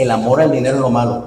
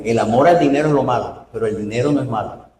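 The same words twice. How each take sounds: First: Quick first reading. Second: Careful correction of a misread verse; deliberate restatement. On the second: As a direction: spell out "al" and "no" as the key words. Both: Shown as a demonstration. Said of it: "interpretemos bien la Biblia".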